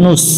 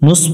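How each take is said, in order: First: The consonant is a sharp hissing 's' sound. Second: The consonant is a sharp hissing 's' sound.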